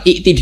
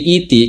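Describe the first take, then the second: First: A glottal stop comes after the first vowel. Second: A long vowel replaces the glottal stop. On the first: "ikti itu hamzah" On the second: "diganti iti karena ada kasro"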